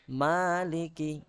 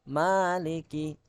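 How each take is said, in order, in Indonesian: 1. Vokal pertama dibaca dua ketukan. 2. Vokal pertama dibaca dua ketukan.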